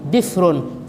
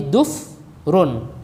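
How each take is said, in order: First: An i sound, then no second vowel. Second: A u sound, then no second vowel. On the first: "bikasrin fasukun" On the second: "bidomin fasukun"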